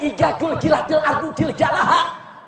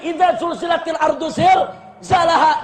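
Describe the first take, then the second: First: The opening words use j sounds instead. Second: The opening words use dz and z sounds. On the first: "dia baca Ijazul Jilatil Ardu Zilzalaha" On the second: "Diulang berkali-kali"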